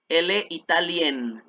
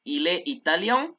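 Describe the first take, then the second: First: "italienne" ends with a clear n, "ee-tah-LYEN"; pronounced n ending. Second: "italien" ending in a nasal vowel, no n heard; nasal masculine ending. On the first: Teacher stressing that the n is pronounced. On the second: Teacher modelling the masculine nasal ending. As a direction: end "italien" nasal and open. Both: Shown as a demonstration. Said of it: "Ahí se pronuncia la N".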